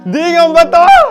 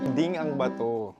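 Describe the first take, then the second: First: It is said in a panicked, frightened tone. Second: It is said in a calm, plain tone.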